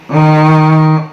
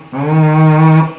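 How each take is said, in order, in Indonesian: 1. Bunyi m itu dengung sengau yang ringan dan sebagian. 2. Bunyi m itu dengung sengau yang ringan dan sebagian.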